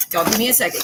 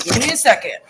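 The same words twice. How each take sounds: First: Said in the usual way. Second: Louder, firmer repeat of the ask. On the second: Real, not acted. Cooking streamer insists chat wait, louder. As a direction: push it out louder the second time.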